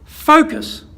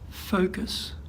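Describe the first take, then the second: First: The word is said loudly and forcefully. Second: The word is said quietly and softly. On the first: "I hit it a bit harder" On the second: "Or I could say"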